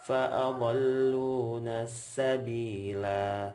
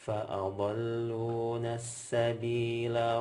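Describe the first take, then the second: First: The final vowel is held for two beats. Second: The final vowel is held for one beat. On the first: The recitation stops after this word. "Ketika kita waqaf dulu. ... Dua harokat" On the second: The recitation continues into the next word. "Kalau wasal ... La-nya dibaca pendek"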